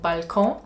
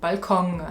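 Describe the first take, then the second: First: It is said with a French accent. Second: It is said with a German accent. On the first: "le mot balcon" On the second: "ça devient balcon"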